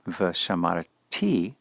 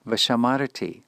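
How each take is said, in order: First: Vashamarati with the stress shifted onto the final ti; slow down and stress the last syllable of vashamarati; accent on the last syllable. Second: Vashamarati with stress on the next-to-last syllable, ra-TI unstressed at the end; accent on the penult. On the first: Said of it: "if the accent rests on the last syllable". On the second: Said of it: "the accent will fall where we would normally expect it". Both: Shown as a demonstration.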